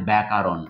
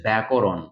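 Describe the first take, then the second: First: ব্যাকরণ with a long "aa" after k, byakaaron; students' mispronunciation. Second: ব্যাকরণ with a rounded "o" after k, byakoron; correct pronunciation. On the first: Teacher quotes students' common error, ব্যাকরণ mispronounced as byakaaron. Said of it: "প্রচুর ছাত্রছাত্রীর মুখে আমরা উচ্চারণে খুঁজে পাই". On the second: Teacher models it for students, ব্যাকরণ correctly pronounced byakoron. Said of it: "উচ্চারণটাও যেন সঠিক হয়". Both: Shown as a demonstration.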